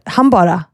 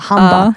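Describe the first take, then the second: First: The word is said in full with two syllables. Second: The word is shortened to one syllable, ba. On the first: This is how the speaker said it after giving up the Stockholm form. "jag slutade med så jag bara sa så här" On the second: This is how people in Stockholm say it. "i Stockholm säger vi så här"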